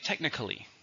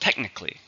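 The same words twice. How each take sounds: First: The word is said with four syllables. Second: The word is said with three syllables. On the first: "you could pronounce it with four syllables" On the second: "Three, stress on the first"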